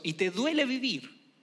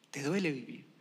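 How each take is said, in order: First: Said in the usual way. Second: Softer, lower, heavy; quiet, lower echo. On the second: Shown as a demonstration. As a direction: repeat it low and soft. Soft repeat.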